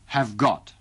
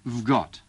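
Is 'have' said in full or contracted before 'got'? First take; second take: full; contracted. First: The word have is said in full. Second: The word have is shortened to a v sound. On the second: "tetapi disingkat menjadi"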